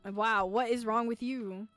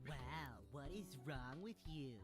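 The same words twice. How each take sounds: First: It is said in a normal voice. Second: It is said in a nasal voice.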